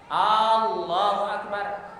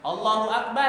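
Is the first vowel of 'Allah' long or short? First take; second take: long; short. First: The first vowel of Allah is drawn out long. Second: The first vowel of Allah is kept short. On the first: It turns the phrase into a question. The speaker calls it wrong. "Kalau dia A dua harokat, maka maknanya menjadi pertanyaan" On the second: It is a statement of greatness. The speaker calls it right. "artinya Allah Maha Besar"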